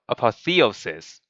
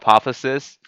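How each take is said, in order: First: The middle 'theo' syllable is clearly said. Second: The middle 'theo' syllable is left out. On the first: The speaker calls it right. "it should be apo- apotheosis instead" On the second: The speaker calls it wrong. "I did not say the word Theo on that second uh second part of the word"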